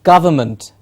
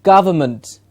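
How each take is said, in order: First: The middle vowel is reduced to a schwa. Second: The same.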